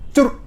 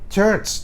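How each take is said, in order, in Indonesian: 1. Kata ini dimulai dengan bunyi k yang keras. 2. Kata ini dimulai dengan bunyi ch yang mendesis. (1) "bukan desis, tapi kan salah baca"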